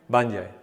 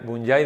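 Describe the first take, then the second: First: The name is said the original English way. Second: The name is said the Spanish way. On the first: This is how the name is really pronounced. The speaker calls it right. "¿Cómo se pronuncia?" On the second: This is how Spanish speakers usually say it. The speaker calls it wrong. "Bunyai decimos nosotros, pero no se pronuncia así"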